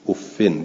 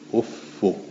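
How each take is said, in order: First: The word ends in an -in sound. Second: The word ends in a short -u sound. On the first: "افن بالکسر و تنوین" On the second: "افو مزمومتون غیر منونه"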